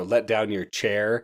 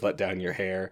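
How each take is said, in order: First: "Let down your chair" said slowly with a hard ch sound on chair; slow and deliberate, "chair" with a clear ch; misheard rhyme. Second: Said in the usual way. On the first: Retold or imitated. Retelling the wrong version of Rapunzel, slow, chair with a ch. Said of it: "people would just get her name wrong". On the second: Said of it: "instead of".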